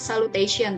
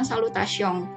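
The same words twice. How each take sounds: First: It is pronounced with English sounds. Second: It is pronounced with French sounds and nasal ending. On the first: The speaker calls it wrong. "kalau masih terbawa suasana belajar bahasa Inggris mungkin eh, dianggapnya dibacanya salutation" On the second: The speaker calls it right. "dalam bahasa Prancis ini dilafalkan dengan salutation"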